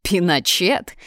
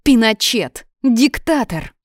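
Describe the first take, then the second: First: "Пиночет" repeated with a rising question tune; questioning echo. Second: Loud, high accusing shout; indignant exclamations, pitched up; angry name-calling. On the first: A narrator's reading. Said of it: "повторил я". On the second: Acted. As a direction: hurl each word as an insult. Sonya hurls insults in quarrel.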